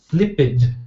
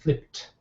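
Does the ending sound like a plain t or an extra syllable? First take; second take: extra syllable; plain t. First: The ending adds an extra id syllable. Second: The ending is a plain t sound. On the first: The speaker calls it wrong. "your pronunciation is not correct" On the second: The speaker calls it right. "You can see you've got to say flipped"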